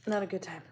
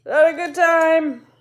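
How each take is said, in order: First: Said in the usual way. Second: Much higher, louder, slow and drawn out; mock dramatic wail. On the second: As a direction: wail it like a melodramatic complaint. Repeats phrase, second time exaggerated.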